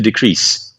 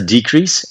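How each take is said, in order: First: The stress is on the second syllable. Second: The stress is on the first syllable. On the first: It is used as a verb. "e a sílaba final para o verbo" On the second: It is used as a noun. "substantivo com a sílaba a inicial, com a tônica"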